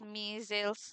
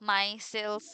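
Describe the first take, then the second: First: The first syllable sounds like 'mi'. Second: The first syllable sounds like 'my'. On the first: "আমি তো মিজেলস বলতেছি" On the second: "মাইসেলস বললে ওইটা বলতে পারো"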